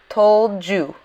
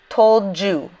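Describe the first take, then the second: First: The two words run together. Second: The two words run together.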